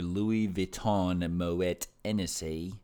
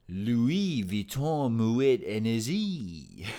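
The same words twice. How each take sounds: First: It is said in an odd, unplaced accent. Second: It is said in an attempted French accent. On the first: "I don't know where that accent came from" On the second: "It's the best French accent I got"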